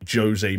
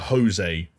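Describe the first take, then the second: First: The name is said the Portuguese way. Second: The name is said the non-Portuguese way. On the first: This is how Portuguese speakers say it. "It would always be like Jose Mourinho" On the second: This is not how Portuguese speakers say it. "you wouldn't get a Jose from Portugal or from Brazil"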